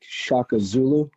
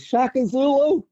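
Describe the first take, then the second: First: It is said in his normal voice. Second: It is said in a kid's lisping voice.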